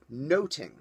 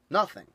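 First: The middle consonant is a 't' sound. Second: The middle consonant is a 'th' sound. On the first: This is the pronunciation of Elizabethan England. The speaker calls it right. "The English pronounced it noting" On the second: This is the modern pronunciation. The speaker calls it wrong. "It was not pronounced nothing"

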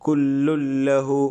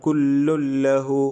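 No difference in how they are said.

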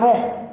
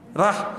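First: The syllable has a rounded 'o' vowel. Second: The syllable has an open 'a' vowel. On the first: The speaker calls it wrong. "ada baca roh, salah ni dari segi tajwid" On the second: The speaker calls it right. "Bismillahirrahman rah"

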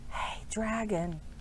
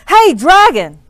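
First: It is whispered very softly. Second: It is shouted very loudly.

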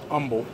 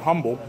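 First: The word begins without an H sound. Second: The word begins with an audible H sound. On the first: The speaker calls it wrong. "but everybody here pronounces it Humble" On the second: The speaker calls it right. "Or as I like to call it, Humble. Because it's spelled like Humble. There's an H there"

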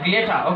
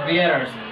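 First: The word ends with no R sound. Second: The word ends with an audible R sound. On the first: "if you want to speak British English, so you will say glitter, okay? There will be no R sound" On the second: "But in American English, you will say glitters"

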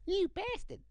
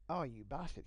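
First: It is said in a Cartman voice. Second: It is said in a normal voice.

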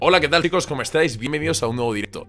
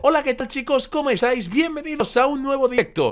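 First: It is said in his normal voice. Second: It is said in a raised, high voice.

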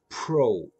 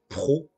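First: The syllable is said with an English R. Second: The syllable is said with a French R. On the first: "Et là, pro. Le R, je le prononce pas pareil" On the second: "donc français, pro"

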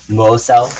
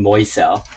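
First: The first vowel is a plain 'oh'. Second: The first vowel glides like 'oy'. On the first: The speaker calls it right. "Mosel, like Mo" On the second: The speaker calls it wrong. "I keep saying Moisel"

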